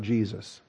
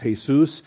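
First: The name is said with English pronunciation. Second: The name is said with Spanish pronunciation. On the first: "If you want to have the Greek spelling, then we're talking about Jesus" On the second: "if you want to have the Spanish, it's Jesus"

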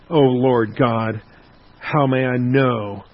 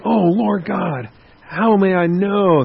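First: The tone sounds skeptical and dismissive. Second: The tone sounds eager and positive. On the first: The asker doubts the promise and has no faith. "very skeptical, very doubting, very dismissive" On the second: The asker trusts the promise and wants tangible assurance. "he could be eager. He could be positive"

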